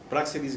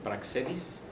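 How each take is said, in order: First: The stress is on the first syllable. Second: The stress is on the second syllable. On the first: The speaker calls it right. "pero es con acento" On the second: The speaker calls it wrong. "a veces le quitan el acento y dicen Praxedis"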